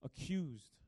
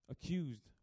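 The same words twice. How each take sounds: The two takes are said the same way.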